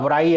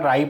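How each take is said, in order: First: The word starts with a w sound. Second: The word starts with an r sound. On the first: The speaker calls it wrong. "ऐसे नहीं पढ़ते हैं" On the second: The speaker calls it right. "इसमें डब्ल्यू silent रहेगा, राई पढ़ेंगे"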